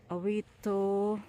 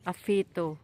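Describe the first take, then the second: First: The middle consonant sounds like w. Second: The middle consonant sounds like f. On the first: The speaker calls it wrong. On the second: The speaker calls it right.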